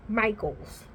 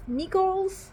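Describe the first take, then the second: First: Michaels said "MY-kulz", with a long eye sound; Michaels, "MY-kulz", as they say it on the show; settling the name. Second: Michaels said as "Meekles", with a short ee; trying the name. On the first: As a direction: Michaels said as "maiklz", dropping low and final. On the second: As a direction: Michaels tried out as "MEE-kulz". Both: Shown as a demonstration. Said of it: "I think that's how they say it on the show".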